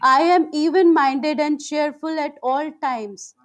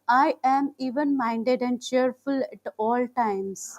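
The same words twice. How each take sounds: First: It is spoken in a loud voice. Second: It is spoken in a soft, quiet voice. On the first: "first in loud voice"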